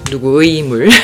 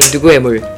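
First: The 의 syllable is pronounced fully and carefully. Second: The 의 syllable is pronounced in a relaxed, reduced way. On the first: "not 누구의 물" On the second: "You can just say 누구의 물. ... it's a relaxed pronunciation"

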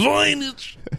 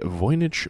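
First: It is said in a silly, put-on comic voice. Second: It is said in a normal speaking voice.

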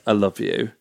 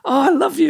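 First: It is said sincerely and warmly. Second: It is said jokingly and playfully.

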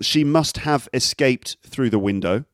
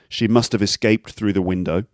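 First: It is said slowly with each word clear. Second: It is said quickly with the words reduced.

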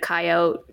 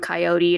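First: The word is said in a shorter, lazier form. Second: The word is said in its full, careful form. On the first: This is a casual, lazy way of saying the name. The speaker calls it wrong. "just because sometimes I get lazy verbally" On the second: This is the original way the name was said. The speaker calls it right.

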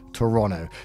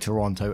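First: The second T sound is dropped. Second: The second T sound is clearly pronounced. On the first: The speaker calls it right. "So it's about dropping the T" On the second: The speaker calls it wrong. "I used to say Toronto and you guys would call me out on it"

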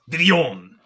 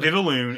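First: The name ends with a 'yon' sound. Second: The name ends with a 'loon' sound. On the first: The speaker calls it right. "it's Vivion" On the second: The speaker calls it wrong. "It's not Vivaloon"

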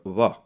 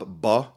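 First: The lips stay slightly open, letting air through. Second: The lips close fully, stopping the air. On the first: "there's also a bilabial fricative" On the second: "it's called a bilabial stop"

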